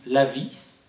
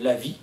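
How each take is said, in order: First: The final consonant of the word is pronounced. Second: The final consonant of the word is silent.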